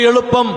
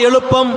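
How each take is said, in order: No difference in how they are said.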